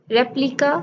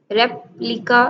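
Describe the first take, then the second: First: Said in the usual way. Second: "रेप्लिका" as rep, pause, lica; split into syllables. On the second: Shown as a demonstration. Teacher counting syllables in replica, split in two. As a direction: break "रेप्लिका" after rep. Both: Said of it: "two syllable".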